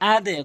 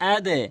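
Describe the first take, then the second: Both takes have the same delivery.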